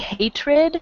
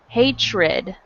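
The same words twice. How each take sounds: First: The middle consonant sounds like a clear t. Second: The middle consonant sounds like ch. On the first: "you can say hatred like that with a T" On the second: "we pronounce it as if it had a C H"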